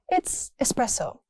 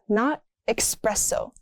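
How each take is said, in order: First: The word starts with a plain S sound. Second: The word starts with an X sound. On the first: The speaker calls it right. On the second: The speaker calls it wrong. "Stop adding an X"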